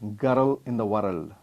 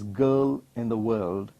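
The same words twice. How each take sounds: First: The R sound is clearly pronounced. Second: The R sound is completely silent. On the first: The speaker calls it wrong. "It is not" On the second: The speaker calls it right. "where the R is completely silent"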